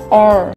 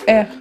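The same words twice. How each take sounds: First: The letter is said with an exaggerated American accent. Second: The letter is said with a French accent. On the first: The speaker calls it right. "d'exagérer un peu votre prononciation comme si vous étiez en train de vous amuser à imiter les acteurs des séries américaines" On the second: The speaker calls it wrong. "le prononcer à la française"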